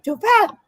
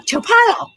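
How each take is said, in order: First: Mock accented develop; put-on foreign twang. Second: Develop said much higher and louder with an affected twang; mock accented develop; put-on foreign twang. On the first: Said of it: "I'm putting a twang to it". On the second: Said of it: "when I'm talking about accent". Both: Shown as a demonstration. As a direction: give develop an artificial accent, high and put-on.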